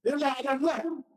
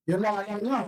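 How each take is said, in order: First: Voiced with a chuckle, lightly playful; laughing as he repeats the line; Jesus teasing with a laugh. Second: Said in the usual way. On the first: Jesus teasing the disciples, with a light laughing voice. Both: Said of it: "sabi ni Jesus".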